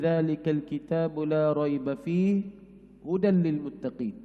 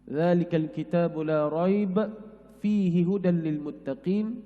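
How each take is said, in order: First: There is a pause after 'fihi'. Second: There is a pause after 'la raiba'.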